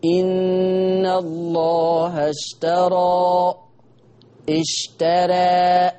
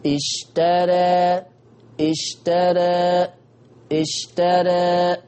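First: Slow sung recitation, اشترى with wide open alif; chanted with full a. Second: اشترى very slow, alif half-open toward e; recited with taqlil. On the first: Teacher chanting the full-open reading to compare. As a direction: chant اشترى slowly, mouth fully open. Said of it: "كده رققت ... فتحة كاملة". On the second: Teacher demonstrating taqlil after the full-open take. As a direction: drawl اشترى with a narrower, tilted alif. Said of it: "أنا عايز تقليل". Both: Shown as a demonstration.

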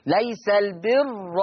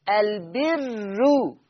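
First: ليس البر slow, ra open and full; Hafs open ra. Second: البر very slow, with a thin ra and a rounded u ending; Warsh light damma ra. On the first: Teacher reciting the Hafs reading of ليس البر. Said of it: "بفتح الراء". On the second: Teacher chanting the Warsh reading, light ra. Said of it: "ورش مضمومة ومرققة". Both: Shown as a demonstration.

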